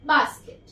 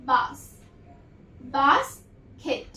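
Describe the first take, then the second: First: Said in the usual way. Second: basket said slowly, each sound held apart; slow blended demo word; drawn out slowly. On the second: Shown as a demonstration. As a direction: stretch basket out for the class. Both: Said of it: "तो क्या sound देता है".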